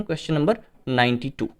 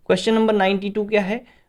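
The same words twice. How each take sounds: First: Said in the usual way. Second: number lifted higher, ending on a rise; teacher quizzing pupils, rising tune; asking the question. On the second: Shown as a demonstration. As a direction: turn the number into a question to the class.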